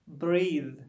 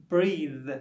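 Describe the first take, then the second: No difference in how they are said.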